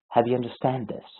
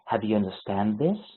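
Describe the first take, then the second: First: The pitch falls at the end of the sentence. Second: The pitch rises at the end of the sentence. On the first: It is an impatient check: have you finally gotten this? "It means, like, have you finally gotten this?" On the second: It is a real question. "It's a question. We perceive it as a question"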